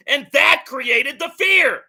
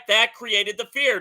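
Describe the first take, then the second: First: Loud, slowed, punching the word fear; angry correction, stress on fear; emphatic shout. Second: Said in the usual way. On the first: Real, not acted. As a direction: drive it home, loud and slow, landing on fear. Hammering his point in argument.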